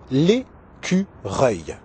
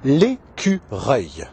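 No difference in how they are said.

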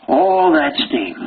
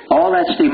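First: "all" drawn out high and slow; stress on all. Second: Said in the usual way. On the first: Retold or imitated. Teacher savoring how he got "all" the steam, drawn out. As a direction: stretch out the word "all" slowly and high. Stretching to get more steam.

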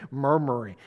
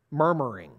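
First: "murmuring." dropped low and hummed on the m's; murmured word. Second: "murmuring." said low and rolled, letting the m's hum; murmured word. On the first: Preacher showing the word "murmuring." sounds like itself, low hum. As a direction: let "murmuring." rumble low. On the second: Preacher savoring the word "murmuring." low and humming. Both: Shown as a demonstration. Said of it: "it sounds like exactly what it is".

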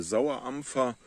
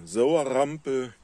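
First: "Sauerampfer" sauber hochdeutsch, mit klarem pf; hochdeutsche Form. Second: "Sauerrampel" mundartlich mit rr und p gesprochen, langsam betont; Mundartform. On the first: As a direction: sag "Sauerampfer" in der Schriftsprache, nicht mundartlich. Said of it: "Das ist der Sauerrampel". ("Sauerampfer" standarddeutsch, pf deutlich gesprochen) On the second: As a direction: sag "Sauerrampel" wie im Dorfdialekt, mit hartem p statt pf. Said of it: "Das ist also der Sauerampfer". ("Sauerrampel" in breiter Mundart, ohne f) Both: Shown as a demonstration.

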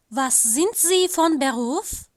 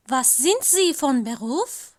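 The two takes are said the same way.

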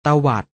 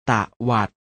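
First: Said in the usual way. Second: ตะวัด split into ตะ and วัด; short ตะ, clear gap, then วัด; syllable by syllable. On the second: Shown as a demonstration. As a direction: sound out ตะวัด in two beats. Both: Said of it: "อ่านว่า".

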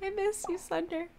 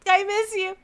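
First: High, soft little plea; small voice full of longing; quiet pining. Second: High-pitched, aching exclamation; pining outburst. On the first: Player answers absent Sunder, small and wistful. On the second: Reader of a lover's text, high and pining. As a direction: burst out with longing. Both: Acted.

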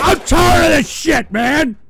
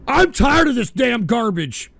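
First: Loud, fed-up yell at the chat; real shouted complaint; angry shout. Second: Said in the usual way. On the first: Real, not acted. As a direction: blast it out, fed up. Ranting at trolls on stream.

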